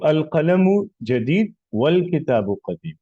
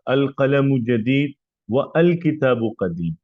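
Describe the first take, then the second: First: The 'wa' links straight to 'l' without 'a'. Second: The 'a' of 'al kitab' is pronounced separately. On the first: The speaker calls it right. "ये डायरेक्ट वाव को लाम से मिलाया जाएगा" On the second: The speaker calls it wrong. "आप ये यूं नहीं बोलते"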